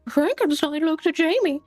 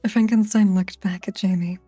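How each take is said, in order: First: It is read in a Mickey Mouse voice. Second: It is read in a normal voice.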